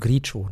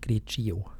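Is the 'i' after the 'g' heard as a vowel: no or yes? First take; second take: no; yes. First: The i after the g is silent. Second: The i after the g is sounded. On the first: The speaker calls it right. "Das I wird nicht" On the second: The speaker calls it wrong. "nicht Grigio"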